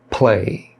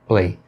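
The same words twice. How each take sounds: First: The p is released with a puff of air. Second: The p is released without a puff of air. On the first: The speaker calls it right. "você tem que fazer a aspiração" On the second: The speaker calls it wrong. "E não simplesmente play"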